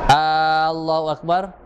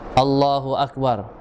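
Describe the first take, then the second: First: The opening vowel is drawn out long. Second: The opening vowel is said short. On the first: It asks whether God is the greatest. The speaker calls it wrong. "dia kasih panjang itu alif" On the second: God is the greatest. The speaker calls it right. "bacaan yang betul"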